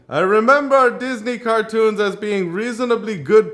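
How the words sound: It is read with a put-on accent.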